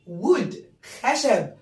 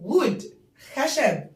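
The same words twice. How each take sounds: The two takes are said the same way.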